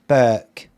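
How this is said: It is said with a southern vowel. "down south, they probably say Burke"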